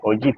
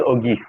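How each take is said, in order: First: The middle consonant is a soft j sound. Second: The middle consonant is a hard g sound.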